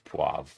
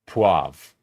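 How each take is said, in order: First: No R sound is pronounced in the word. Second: An R sound is pronounced in the word. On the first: The speaker calls it right. "It's poivre" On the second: The speaker calls it wrong. "I always forget the R doesn't exist"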